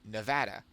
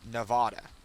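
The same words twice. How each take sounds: First: It is said with a West Coast pronunciation. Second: It is said with an East Coast pronunciation. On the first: The speaker calls it right. "if you are West Coast United States, you will say Nevada is Nevada" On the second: The speaker calls it wrong. "She would pronounce it Nevada, and that's just a combination of their accent"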